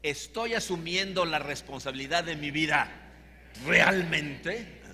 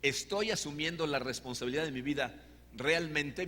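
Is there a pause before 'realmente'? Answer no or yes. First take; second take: yes; no. First: A dramatic pause comes before realmente. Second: No pause comes before realmente.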